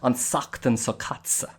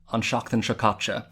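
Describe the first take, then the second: First: The hissing sounds are said as long 's'. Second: The hissing sounds are said as 'sh'. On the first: "in the Connemara accent that can kind of sound like" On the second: "you might say something like"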